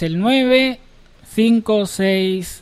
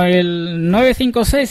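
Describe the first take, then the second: First: The number is said slowly. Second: The number is said quickly.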